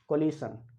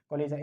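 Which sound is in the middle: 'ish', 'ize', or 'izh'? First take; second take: ish; izh. First: The middle sounds like 'ish' with a hissing sh. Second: The middle sounds like 'izh' with a buzzing zh. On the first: The speaker calls it wrong. "कोलिशन या कोलाइजन गलत होता है" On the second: The speaker calls it right. "इसको बोलते हैं कोलिजन"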